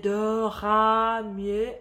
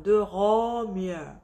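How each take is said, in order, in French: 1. La voyelle est ouverte et étirée, pas arrondie. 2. La voyelle est arrondie, la bouche garde une seule position.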